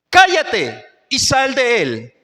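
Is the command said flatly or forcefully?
forceful. It is exclaimed in a loud, commanding tone. The speaker calls it right. "con un tono de voz fuera de lo usual"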